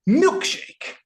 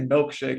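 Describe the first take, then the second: First: It is said in an imitated character voice. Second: It is said in the speaker's ordinary voice. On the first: "he's like milkshake" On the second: "So I say milkshake"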